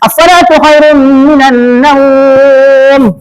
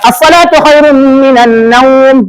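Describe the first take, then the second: First: The vowel in naum is held six beats. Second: The vowel in naum is held two beats. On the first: "Enam boleh" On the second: "Ambil dua"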